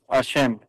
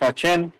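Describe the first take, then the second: First: The middle consonant is an 'sh' sound. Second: The middle consonant is a 'ch' sound. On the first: The word names the Eternal. The speaker calls it right. "Es Hashem" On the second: The word no longer addresses the Eternal. The speaker calls it wrong. "pueden decir unos Hachem, el diente"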